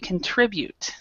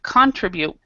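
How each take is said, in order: First: The stress is on the middle syllable. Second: The stress is not on the middle syllable. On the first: The speaker calls it right. "the stress is in the middle" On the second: The speaker calls it wrong. "Instead of contribute"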